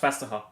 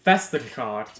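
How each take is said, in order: First: The ending is cut short to a soft 'ha'. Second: Every letter of the ending is sounded out. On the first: The speaker calls it right. "That is pronounced Vesterha" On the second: The speaker calls it wrong. "that's how you expect it to pronounce it"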